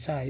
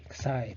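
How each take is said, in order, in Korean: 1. 이 단어는 z 소리로 시작합니다. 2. 이 단어는 ks 소리로 시작합니다. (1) "미국 사람은 아마 자이라고 발음할 수도" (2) "발음은 크사이입니다"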